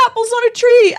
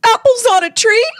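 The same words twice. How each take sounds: First: "Apples on a tree!" high, loud, falling on "tree" as a teary exclamation; amazed exclamation. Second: "Apples on a tree?" high, loud, rising on "tree" as a teary question; amazed question. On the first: Realizing the apples are really there, high teary falling exclamation. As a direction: proclaim "Apples on a tree!" with a firm fall. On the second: Spotting apples over the neighbor's fence, high teary rising question. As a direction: ask "Apples on a tree?" in wonder, rising at the end. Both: Retold or imitated. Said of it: "I was like".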